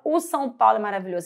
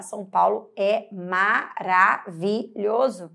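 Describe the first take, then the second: First: "o São Paulo" said quick and light; wrong with article. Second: Said in the usual way. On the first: Shown as a demonstration. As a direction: rattle off "o São Paulo é maravilhoso" fast. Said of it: "Aí você tem São Paulo". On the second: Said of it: "Você fala".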